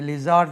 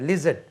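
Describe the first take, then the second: First: The second vowel is a long, full 'aa'. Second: The second vowel is short and reduced. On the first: The speaker calls it wrong. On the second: The speaker calls it right.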